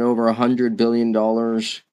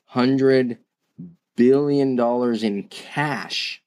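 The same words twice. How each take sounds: First: Said in the usual way. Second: Slowed right down, pausing after "Hundred"; slow emphatic repeat. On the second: Real, not acted. Podcaster repeating Apple's cash figure so it sinks in, slow and deliberate. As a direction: spell out "Hundred billion dollars" slowly, word by word for weight. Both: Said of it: "I'm gonna say that slowly and repeat".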